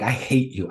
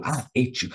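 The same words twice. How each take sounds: First: Low-key imitated hatred; mild mock anger, kept in check; retold anger. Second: Quieter, throaty imitated growl; ugly guttural voice. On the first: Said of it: "I got every deep, ugly, guttural voice". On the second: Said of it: "ugly, guttural voice out of me".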